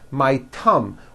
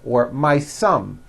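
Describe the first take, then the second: First: Thumb begins with a t sound. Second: Thumb begins with an s sound. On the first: "you've been saying thumb" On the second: "your tongue is not coming out"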